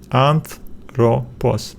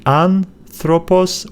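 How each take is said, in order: First: "anthropos" slowly as anth, ro, pos; split after "th". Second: "anthropos" as an, thropos; split before "th". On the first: Teacher comparing two splits, slowly breaking after "anth". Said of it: "or you will say anthropos". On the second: Teacher comparing two splits, breaking after "an". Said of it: "whether you say anthropos". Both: Shown as a demonstration.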